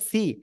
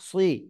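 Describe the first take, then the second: First: The syllable sounds like a plain, thin 'see'. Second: The syllable sounds heavy and rounded, like 'swee'. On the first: The speaker calls it wrong. "অনেকে বলে সি, সি বলা যাবে না" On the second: The speaker calls it right.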